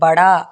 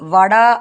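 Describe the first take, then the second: First: The word begins with a b sound. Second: The word begins with a v sound. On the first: "படா அப்படின்னு சொல்லுவாங்க" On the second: "வடா அப்படின்னு சொல்லுவாங்க"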